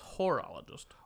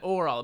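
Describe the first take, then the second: First: The word starts with an h sound. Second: The word starts without an h sound. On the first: The speaker calls it right. "but it's horologist" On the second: The speaker calls it wrong. "I keep on saying orologist"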